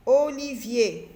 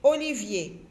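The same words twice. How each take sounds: First: "Olivier" slow, each syllable held; drawn-out syllables. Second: Said in the usual way. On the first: Shown as a demonstration. Teacher checking the word with children, "Olivier" slowly sounded out. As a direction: stretch out every syllable of "Olivier".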